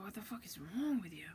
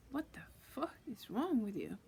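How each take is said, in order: First: Said in the usual way. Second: WRONG swooping up high, then falling; emphatic exasperation. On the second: Retold or imitated. Asking the being what is wrong, emphatic and exasperated. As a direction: draw out FUCK and WRONG in disbelief. Repeats the question with more emphasis.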